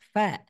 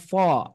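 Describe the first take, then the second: First: The f and vowel sound light and thin. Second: The f and vowel sound heavy and dark. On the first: The speaker calls it right. "huruf fa-nya itu harus lemes" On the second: The speaker calls it wrong. "bukan fo"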